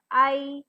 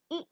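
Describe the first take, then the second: First: "I" as the letter name, eye; long vowel. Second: "I" as the short ih in igloo; brief "I" sound, not the letter name; short vowel. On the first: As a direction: say "I" long, like in eyes. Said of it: "and I in eyes". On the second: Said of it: "in igloo". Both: Shown as a demonstration.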